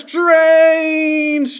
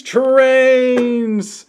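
First: High gleeful shout of the word; excited shout. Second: High sung-out cheer; excited cry. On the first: Toy reviewer cheering his trains, high gleeful shout. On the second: Toy reviewer cheering his trains again, high cheer. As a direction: cheer it a second time, gleeful. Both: Real, not acted.

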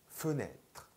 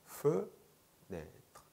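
First: Said in the usual way. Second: "fenêtre" split in two, fe, pause, nêtre; syllable by syllable. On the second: Shown as a demonstration. Teacher breaking the French word down for learners, syllable by syllable. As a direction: break "fenêtre" apart, first syllable held higher.

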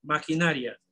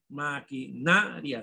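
First: Said in the usual way. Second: Maquinaria slowly split, with NA drawn out; stress on NA. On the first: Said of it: "La sílaba tónica es". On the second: Shown as a demonstration. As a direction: lean on the "na" in Maquinaria.

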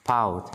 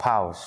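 First: Said in the usual way. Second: "pounds" with a hissed final S; plural S added. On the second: Shown as a demonstration. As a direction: finish "pounds" on an audible s. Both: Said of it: "số nhiều thêm S vào".

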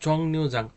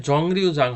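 First: "জংনিউজাং" with an n sound in the middle; correct pronunciation. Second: "জংরিউজাং" with an r sound in the middle; wrong pronunciation. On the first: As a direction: say "জংনিউজাং" with নি, not রি. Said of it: "এটার প্রনাউন্সিয়েশনটা হবে". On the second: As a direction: say "জংরিউজাং" with র instead of ন, drawn out. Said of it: "হবে না". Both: Shown as a demonstration.

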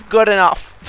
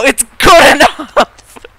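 First: Said in the usual way. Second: Slow, loud, higher good enough; a long mock-triumphant shout of good enough; drawn-out shout. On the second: Shown as a demonstration. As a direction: yell it out, stretching good enough. Repeating motto good enough.

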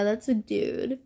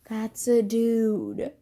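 First: Said in the usual way. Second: "that's a dude" slowed right down, leaning on it; slow emphatic insistence. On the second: Shown as a demonstration. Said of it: "Even if he looks like a female".

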